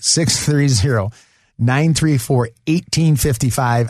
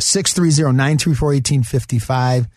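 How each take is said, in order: First: The number is said slowly. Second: The number is said quickly.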